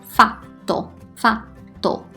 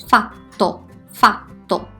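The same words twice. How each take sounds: The two takes are said the same way.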